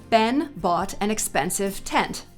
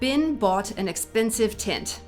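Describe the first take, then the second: First: General American accent, with distinct short e vowels. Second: American accent with the short e vowels sounding like i. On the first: "In a more general American accent like mine, it would sound like this" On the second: "If I were an actor who had the pin-pen merger"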